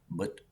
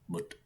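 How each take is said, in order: First: The final t is light and soft. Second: The final t is light and soft.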